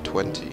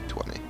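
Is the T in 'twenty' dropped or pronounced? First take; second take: pronounced; dropped. First: The T sound in the middle is pronounced. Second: The T sound in the middle is dropped. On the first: The speaker calls it wrong. "It doesn't sound right to me. That's not how I say it" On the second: The speaker calls it right. "I don't normally say the T's"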